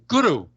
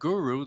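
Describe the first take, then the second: First: It is said with an Indian pronunciation. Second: It is said with a non-Indian pronunciation. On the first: Listeners in India recognize it. The speaker calls it right. "their ears were attuned to guru, those two two syllables" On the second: Listeners in India did not understand it. The speaker calls it wrong. "they did not understand what I was saying when I said guru"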